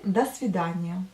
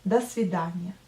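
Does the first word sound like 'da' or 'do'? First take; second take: da; da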